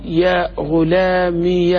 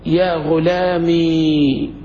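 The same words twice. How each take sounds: First: يا غلامي drawn out very slowly, final ي said as ya; slow demo, ya with fatha. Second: يا غلامي drawn out very slowly with a silent final ya; slow demo, silent ya. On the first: Teacher showing the fatha reading, slow and drawn out. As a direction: lengthen يا غلامي, end on yaa. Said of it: "هذه وحدة بالفتح". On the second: Teacher asked how to say it, slow demonstration. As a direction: stretch يا غلامي, end on a still ي. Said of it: "كيف تنطقها؟". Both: Shown as a demonstration.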